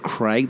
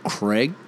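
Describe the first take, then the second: First: It is said in the speaker's own Australian way. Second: It is said the way Americans say it.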